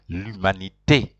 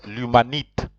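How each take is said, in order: First: The final e is clearly pronounced. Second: The final e is left silent. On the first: "since there's an accent on top of the e, then you have to say" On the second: "if there was no accent on top of the e, You would have pronounced it"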